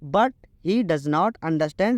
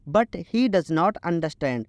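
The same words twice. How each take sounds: Both takes have the same delivery.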